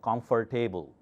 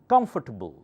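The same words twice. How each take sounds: First: The stress is on the third syllable. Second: The stress is on the first syllable. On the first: The speaker calls it wrong. "not comfortable" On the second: The speaker calls it right. "Come louder"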